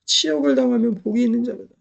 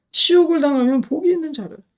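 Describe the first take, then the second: First: Said in the usual way. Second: 치욕을 punched higher, leaning hard on 치욕을; veins-out emphasis. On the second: Shown as a demonstration. Preacher urging the congregation, hitting 치욕을 hard and higher. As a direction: say 치욕을 like your veins are standing out. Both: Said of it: "핏줄을 좀 걸으시기 바랍니다".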